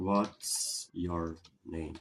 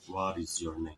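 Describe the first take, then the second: First: What is is contracted into one syllable. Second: What is is said in full, two words. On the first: It is the more common everyday form. "A forma que eu estou falando, ela está sendo abreviada" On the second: It is rarely heard in everyday speech. "Se eu falar de forma sem abreviar"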